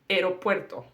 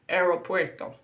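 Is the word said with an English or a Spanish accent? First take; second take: English; English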